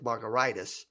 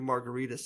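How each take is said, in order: First: It ends in -itis, like gingivitis. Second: It sounds like the cocktail name margarita. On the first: "it should be pronounced like an inflammation" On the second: "So we just keep it as a cocktail"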